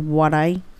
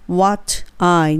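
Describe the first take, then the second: First: The t is reduced, the words linked together. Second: The t is clear, the words kept separate. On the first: The speaker calls it right. "ちょっとブロークになってwhat I になります" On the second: The speaker calls it wrong. "what I にせずに"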